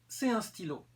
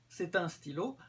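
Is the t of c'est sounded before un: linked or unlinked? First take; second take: unlinked; linked. First: No t sound links c'est to un. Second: The t sound links c'est to un. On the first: This is a more casual, familiar way to say it. "sans liaison" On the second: This is the usual, standard way to say it. "avec la liaison"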